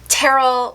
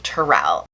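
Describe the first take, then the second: First: The name is said to rhyme with Cheryl. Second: The name is said not rhyming with Cheryl. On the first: The speaker calls it wrong. "Usually people try and say it Terrell like Cheryl" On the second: The speaker calls it right. "but it's actually Terrell"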